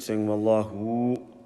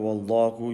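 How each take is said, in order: First: The final vowel is stretched out too long. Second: The final vowel is held for normal length. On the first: The speaker calls it wrong. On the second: The speaker calls it right.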